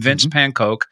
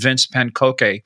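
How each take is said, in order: First: The surname is said with English sounds. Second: The surname is said with German sounds.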